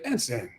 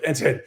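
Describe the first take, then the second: First: It is said in an approving, pleased tone. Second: It is said in a scolding, reproachful tone.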